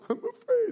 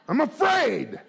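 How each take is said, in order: First: It sounds frightened and fearful. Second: It sounds angry and aggressive.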